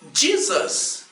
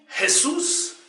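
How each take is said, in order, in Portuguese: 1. O nome é pronunciado do jeito inglês. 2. O nome é pronunciado do jeito espanhol. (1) "Os povos de língua inglesa dizem" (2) "Os hispânicos dizem"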